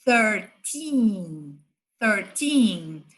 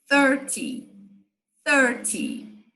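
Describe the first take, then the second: First: Put-on "thirteen" with tongue-between-teeth TH and long TEEN; careful TH, then stretch the second syllable of "thirteen"; stress on TEEN. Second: "Thirty" with strong first syllable, short falling -ty; stress on THIR. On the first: Teacher demonstrating treze, TH and stressed TEEN. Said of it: "O T H tem que pôr a língua entre os dentes". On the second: Teacher demonstrating trinta, stress on THIR. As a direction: hit the THIR of "thirty" and let -ty drop. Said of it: "a sílaba forte vai ser a, a primeira". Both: Shown as a demonstration.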